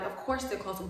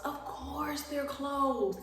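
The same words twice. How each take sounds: First: Said in the usual way. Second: Sarcastic drawl. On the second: Retold or imitated. Resigned at the closed store.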